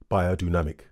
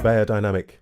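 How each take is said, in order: First: The name is said with a German pronunciation. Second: The name is said with an English pronunciation.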